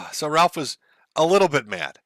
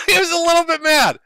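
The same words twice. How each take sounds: First: Said in the usual way. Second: High and loud through laughter; said while still laughing. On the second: Real, not acted. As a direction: repeat it cracking up. Laughing repeat of understatement.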